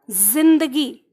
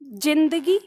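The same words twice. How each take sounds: First: जिंदगी said slowly with a buzzing z; जिंदगी starting with a voiced z, drawn out; z with Urdu z. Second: जिंदगी said with plain j sound; जिंदगी with ordinary ज, no buzz. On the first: (ज़ वाला ज़िंदगी) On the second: (ज वाला जिंदगी) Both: Shown as a demonstration. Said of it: "मैं दो उच्चारण लेती हूँ".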